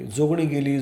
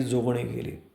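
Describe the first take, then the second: First: A mild mock cry of alarm, called out; crowd's alarm cry. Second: The same cry repeated, softer and lower, dying off; cry fading away. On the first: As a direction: call it out like a panicked crowd. (घाबरलेल्या गर्दीची हलकी आरोळी) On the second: Acted. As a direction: let the alarm echo away into the distance. (ओरड हळूहळू विरत जाणारी, हळू आवाजात) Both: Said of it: "सर्वत्र एकच ओरड घुमली".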